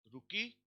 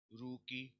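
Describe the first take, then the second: First: रुकी stressed on की, high and rising; रुकी, ending stressed, rising. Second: रुकी, stem stressed, falling; stress on the first syllable. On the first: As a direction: push the weight onto की in रुकी. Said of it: "generative singular रुकी". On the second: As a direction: put the weight on रु in रुकी. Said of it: "और ये रुकी". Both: Shown as a demonstration.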